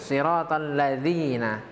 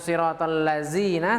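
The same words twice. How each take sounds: First: The consonant in 'ladzina' is a 'dh' sound. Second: The consonant in 'ladzina' is a 'z' sound. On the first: The speaker calls it right. "hurufnya adalah huruf zal" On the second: The speaker calls it wrong. "bukan huruf zaid"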